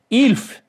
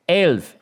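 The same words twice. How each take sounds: First: Ilf said with a short i sound, a near miss; attempted Elf. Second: Elf said with a clear short e, like shelf; correct Elf. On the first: Thief trying to copy Cephawin's Elf. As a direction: try Ilf, vowel slipping toward i. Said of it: "I tried". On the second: Acted. Cephawin correcting his Elf. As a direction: model the right vowel in Elf. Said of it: "Say it right".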